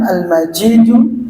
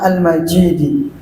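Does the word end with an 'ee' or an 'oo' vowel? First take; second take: oo; ee. First: The word ends with an 'oo' vowel. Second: The word ends with an 'ee' vowel. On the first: It describes God as glorious. "Kalau Al-Majidu itu berarti sifatnya sifatnya siapa? Allah" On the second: It describes the throne as glorious. "Juga bisa dibaca Al-Majidi, berarti itu sifatnya arsy"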